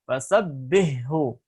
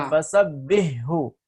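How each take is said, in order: The two takes are said the same way.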